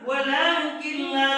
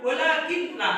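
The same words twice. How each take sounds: First: The n merges into the l without hum. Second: The n is kept with a nasal hum. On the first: The speaker calls it right. "Harus dibaca walakin la. ... tanpa dengung" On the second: The speaker calls it wrong. "tidak boleh dibaca walakin la"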